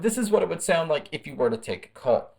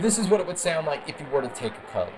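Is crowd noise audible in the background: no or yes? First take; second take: no; yes. First: The voice is heard without background crowd noise. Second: The voice is heard over background crowd noise.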